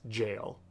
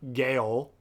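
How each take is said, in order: First: The word begins with a j sound. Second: The word begins with a hard g sound. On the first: The speaker calls it right. "it's jail" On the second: The speaker calls it wrong. "It's not Gale"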